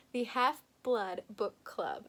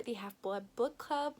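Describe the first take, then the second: First: "Half-Blood Book Club" slowly, word by word; slow, separated "Half-Blood Book Club"; careful retry. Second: "Half-Blood Book Club" run together and fumbled; stumbling through "Half-Blood Book Club"; botched pronunciation. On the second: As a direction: trip over "Half-Blood Book Club" in one breath. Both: Real, not acted. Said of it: "That came out so badly".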